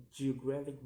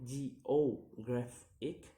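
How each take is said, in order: First: Said in the usual way. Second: "geographic" slowly split into syllables; slow, separated syllables on "geographic". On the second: Shown as a demonstration. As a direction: sound out "geographic" piece by piece. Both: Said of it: "count the word syllable backwards".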